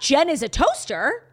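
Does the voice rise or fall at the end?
rise. The voice rises at the end like a question.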